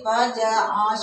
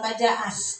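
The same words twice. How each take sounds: First: The s sound is thick and heavy. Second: The s sound is thin and light. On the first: The speaker calls it right. "harus tebal" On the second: The speaker calls it wrong. "bukan pajas"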